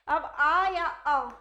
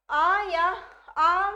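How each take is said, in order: First: आ या अ stretched slowly, each vowel held; teacher spelling out the vowels आ and अ, slow and separate; drawn-out vowel demo. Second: आ called out loud and long; loud vowel demo. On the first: Teacher to students, demonstrating vowels slowly. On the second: Teacher to students, stressing the long आ loudly. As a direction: belt out the long vowel आ for the class. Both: Shown as a demonstration.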